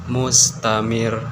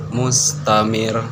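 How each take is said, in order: No difference in how they are said.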